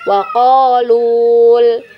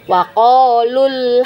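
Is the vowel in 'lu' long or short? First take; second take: long; short. First: The vowel in lu is held long. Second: The vowel in lu is cut short. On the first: The speaker calls it wrong. "Jadi kita tidak baca waqalul ya" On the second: The speaker calls it right. "tapi kita pendekkan"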